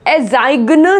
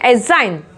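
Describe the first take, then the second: First: The g is sounded before the n. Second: The g is silent before the n. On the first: The speaker calls it wrong. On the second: The speaker calls it right.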